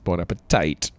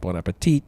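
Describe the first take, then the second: First: The last syllable rhymes with bite. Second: The last syllable rhymes with feet. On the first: This is how someone else says it. "he says bon appetite" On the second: This is the usual way to say it. "instead of saying bon appetit"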